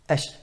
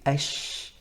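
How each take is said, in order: First: The sh sound is cut off short. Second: The sh sound is drawn out and flowing. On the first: The speaker calls it wrong. "made it really short and said ash" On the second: The speaker calls it right. "the sheen should be ash"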